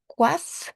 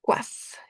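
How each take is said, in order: First: Coiffe said aloud as kwaf, rising; voiced model. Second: Whispered coiffe, sounded kwaf; whispered model. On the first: (coiffe à voix haute, kwaf montant) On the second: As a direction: breathe coiffe as kwaf for the student. (coiffe chuchoté, prononcé kwaf) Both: Shown as a demonstration. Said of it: "directamente coiffe".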